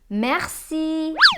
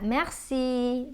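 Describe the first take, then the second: First: The word is said forcefully and strongly. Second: The word is said lightly and gently. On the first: The speaker calls it wrong. "Strong na kayo" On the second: The speaker calls it right. "Dili ra kayo"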